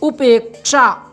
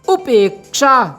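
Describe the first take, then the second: The two takes are said the same way.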